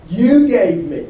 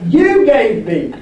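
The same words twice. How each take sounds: First: "you" picked out, then falling away; measured blame landing on "you"; stress on YOU. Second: "you" hit loud and drawn out; slow, louder accusation hammering "you"; forceful stress on YOU. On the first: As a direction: lean on "you" in "you gave me". Adam blaming God, first take. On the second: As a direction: punch "you" hard, stretching the words. Adam blaming God, repeated harder. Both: Acted.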